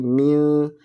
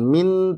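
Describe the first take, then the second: First: The final n is hidden and blurred. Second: The final n is pronounced clearly. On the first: The speaker calls it right. "tapi mil, karena ikhfa itu artinya samar" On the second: The speaker calls it wrong. "jangan min ... jangan dibaca jelas"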